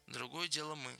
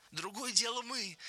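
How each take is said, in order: First: Soft, restrained repetition; subdued echo. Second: Much higher-pitched, delighted chiming in; eager, happy high voice; joyful. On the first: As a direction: say it quietly, without the excitement. George repeats Lennie's phrase quietly. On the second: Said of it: "радостно подхватил Леня". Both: A narrator's reading.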